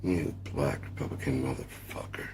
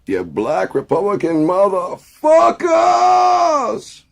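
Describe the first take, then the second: First: Quiet repeat. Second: Very high, slow, louder screaming insult; cracking shout. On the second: Mock rally rant. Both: Pretend.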